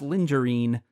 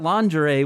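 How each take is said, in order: First: The word ends with an added n sound. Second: The word ends without an n sound. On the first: The speaker calls it wrong. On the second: The speaker calls it right.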